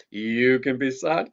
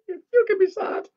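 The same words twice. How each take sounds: First: Sung in the leader's own voice. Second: Much higher puppet echo. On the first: Leader singing to children, own voice. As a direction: sing it plainly. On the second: Mickey the puppet echoing the leader, high-pitched. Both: Acted.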